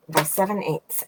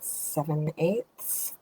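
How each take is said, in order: First: Said in the usual way. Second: Seven eighths asked slowly with a rising tune; slow, doubtful rising question; unsure question. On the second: Real, not acted. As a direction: guess at the measurement aloud, voice lifting on eighths. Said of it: "oh, I don't know".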